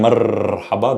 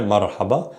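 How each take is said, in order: First: "marhaba" with a long trilled R; strong R. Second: "marhaba" with one light tapped R; soft R. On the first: Arabic teacher shows the wrong strong R, long trill. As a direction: roll the R of "marhaba" hard and long. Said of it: "that would be a strong R". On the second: Arabic teacher isolates the soft R, light tap. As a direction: tap the R of "marhaba" just once. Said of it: "The R there". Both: Shown as a demonstration.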